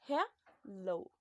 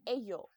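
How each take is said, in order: First: The middle consonant sounds like an L. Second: The middle consonant sounds like a Y. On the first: The speaker calls it right. "It sounds like l, l. So hello" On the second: The speaker calls it wrong. "you don't read it like Ayo"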